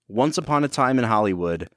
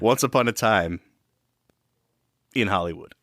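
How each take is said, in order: First: It runs on with no pause after 'time'. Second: It has a clear pause after 'time'. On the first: The speaker calls it wrong. "I don't think you put enough of a pause" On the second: The speaker calls it right. "There we go"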